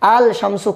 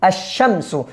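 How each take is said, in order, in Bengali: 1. sh-এর আগে L উচ্চারিত হয়। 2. L বাদ যায় এবং sh দ্বিত্ব হয়। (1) "আল শামসু কোনোদিনও হবে না" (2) "আল শামসু হবে না"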